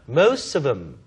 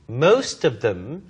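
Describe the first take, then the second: First: The th sound in them is dropped. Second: The th sound in them is pronounced.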